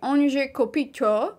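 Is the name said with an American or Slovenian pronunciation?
American. The name is said with an American pronunciation. This is how Americans usually say it. The speaker calls it wrong. "Usually they say"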